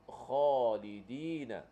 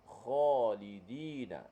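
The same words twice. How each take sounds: The two takes are said the same way.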